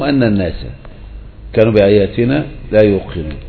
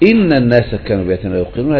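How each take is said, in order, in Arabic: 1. تبدأ الكلمة الأولى بالصوت 'a'. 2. تبدأ الكلمة الأولى بالصوت 'i'.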